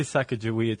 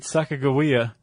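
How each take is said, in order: First: "Sacagawea" with g softened to a j; "Sacagawea" with a j sound in the middle; alternative pronunciation. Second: "Sacagawea" with a hard g; "Sacagawea" as sa-ka-ga-WEE-a; preferred pronunciation. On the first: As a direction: say "Sacagawea" as SAK-a-ja-WEE-a. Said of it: "I think that's fair". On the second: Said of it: "if we say Sacagawea too". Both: Shown as a demonstration.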